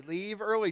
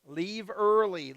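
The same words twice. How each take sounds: First: Said in the usual way. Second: "Leave early." said slowly, every word leaned on; deliberate, insistent "Leave early."; slow emphatic advice. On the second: Shown as a demonstration. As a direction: drive the advice home slowly. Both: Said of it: "pushing hard on leaving early".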